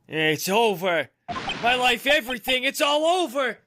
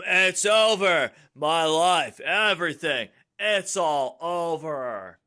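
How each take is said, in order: First: It is said in a Dick Gumshoe voice. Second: It is said in a Garrett voice.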